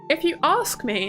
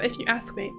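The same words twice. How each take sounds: First: It is said in a Southern English accent. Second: It is said in a Northern English accent. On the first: "Southern V S would just be... me saying things" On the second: "instead of"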